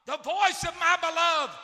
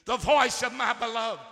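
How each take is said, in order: First: Higher, louder exclamation; preacher voicing God's delighted cry; excited. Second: Louder, ringing exclamation; preacher showing what the exclamation mark means; excited. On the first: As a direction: call it out joyfully. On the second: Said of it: "That's excitement". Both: Shown as a demonstration.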